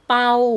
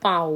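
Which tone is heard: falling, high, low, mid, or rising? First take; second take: mid; low. First: The syllable is said on a level mid tone. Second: The syllable is said on a low tone. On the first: "ปอเอาเปา" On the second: "ใส่ไม่เอกค่ะ"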